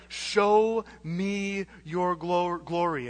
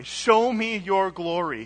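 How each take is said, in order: First: Slow, hushed Moses asking to see glory; slow reverent plea. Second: Said in the usual way. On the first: Retold or imitated. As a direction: Show me your glo-, glory drawn out very slowly. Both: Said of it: "this is the crescendo".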